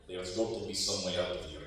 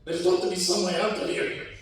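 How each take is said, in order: First: The speaker sounds calm, not afraid. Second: The speaker sounds scared for his life.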